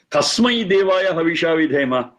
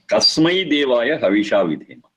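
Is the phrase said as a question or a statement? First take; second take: question; statement. First: It has a questioning tune. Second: It has a settled statement tune. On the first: It asks which god is to be worshipped. The speaker calls it wrong. "If it is a question, ... you understand the intonation modulation" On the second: It states that the one blissful God is worshipped. The speaker calls it right. "there is no question, it's very clear"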